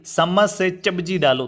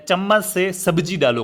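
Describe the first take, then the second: First: "चम्मच से सब्जी" as "sammas se chabji"; unclear mispronunciation. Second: Slow, careful "चम्मच" with a clear ch; correct pronunciation. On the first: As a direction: swap the sounds: s in "चम्मच", ch in "सब्जी". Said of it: "स्पष्ट नहीं है". ("चम्मच से सब्जी" को "सम्मस से चब्जी" बोलना, अस्पष्ट उच्चारण) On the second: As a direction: sound out "चम्मच से सब्जी" slowly, crisp ch and s. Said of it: "कहूँगा, लेकिन अगर मैं कहूँ कि". ("चम्मच" में साफ़ च, धीमा सही उच्चारण) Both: Shown as a demonstration.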